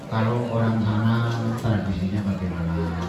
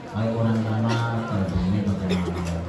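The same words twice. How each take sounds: The two takes are said the same way.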